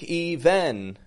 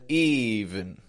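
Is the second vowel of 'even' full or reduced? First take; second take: full; reduced. First: The second syllable has a full, clear vowel. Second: The second syllable has a reduced schwa vowel. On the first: The speaker calls it wrong. "Notice I'm not saying break even" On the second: The speaker calls it right. "but even. Even. Strong, weak. Tense, schwa"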